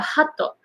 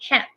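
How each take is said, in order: First: The word ends with an added o vowel. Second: The word ends cleanly on the t sound. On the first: The speaker calls it wrong. "But if you say, oh, I like your hato" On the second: The speaker calls it right. "you want to say hat"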